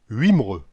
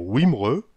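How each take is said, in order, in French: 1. Le premier son est une semi-voyelle 'u' française. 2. Le premier son est une semi-voyelle 'oo'. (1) "ou bien comme un U" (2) "le W est prononcé comme un OU"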